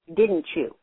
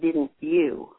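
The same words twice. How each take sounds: First: The word endings are dropped and run together. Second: The word endings are clearly and fully pronounced. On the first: The speaker calls it wrong. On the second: The speaker calls it right.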